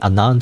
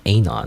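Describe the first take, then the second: First: It is said the standard, non-name way. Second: It is said like a personal name. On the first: The speaker calls it right. "it's not really Anon to me" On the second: The speaker calls it wrong. "It's more like Anon. ... as if it's a name"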